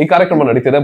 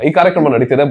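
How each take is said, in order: First: The verb is said in a shortened colloquial form. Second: The verb is said in a shortened colloquial form.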